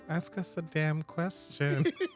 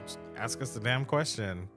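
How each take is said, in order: First: It is said in a gentler tone. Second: It is said in an aggressive tone.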